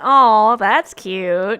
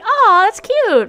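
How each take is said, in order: First: It is said in a mocking, sarcastic way. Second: It is said warmly and sincerely. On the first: It is meant as an insult. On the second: It is meant as a compliment.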